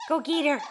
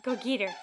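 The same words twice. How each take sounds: First: Louder, pushing harder on go; louder urging. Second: Said in the usual way. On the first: Real, not acted. Mother urges baby again.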